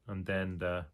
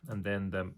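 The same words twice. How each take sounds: The two takes are said the same way.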